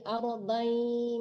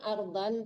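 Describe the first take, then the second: First: The final n merges into a nasal y sound. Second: The final n is pronounced clearly. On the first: The speaker calls it right. "tapi aradai masuk ke ya" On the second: The speaker calls it wrong. "jangan ardan"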